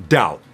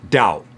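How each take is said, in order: No difference in how they are said.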